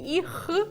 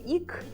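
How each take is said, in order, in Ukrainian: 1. Слово закінчується звуком kh. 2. Слово закінчується звуком k. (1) "не іх" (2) "не ік"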